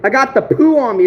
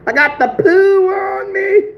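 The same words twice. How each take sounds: First: Said in the usual way. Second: Joe Dirt. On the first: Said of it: "From a movie?". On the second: Acted. Vlogger quoting a movie joke to viewers, high drawn-out mock wail. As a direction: stretch it out in a high, silly voice. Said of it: "Joe Dirt, baby".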